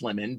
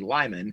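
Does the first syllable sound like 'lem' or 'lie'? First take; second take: lem; lie. First: The first vowel is short, as in 'lem'. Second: The first vowel is long, as in 'lie'. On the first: "it's pronounced lemon" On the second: "it also looks like it could be Lyman"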